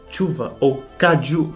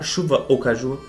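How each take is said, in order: First: The words use the regional, indigenous-like pronunciation. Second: The words use the standard Brazilian pronunciation. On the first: "se fala chuva ou caju, que é algo originalmente da região" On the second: "em vez de se falar"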